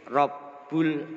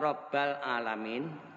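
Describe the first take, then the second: First: The b is followed by a u vowel. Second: The b is followed by an a vowel. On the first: "dengan mendomahkan ba" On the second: "atau menfatahkannya"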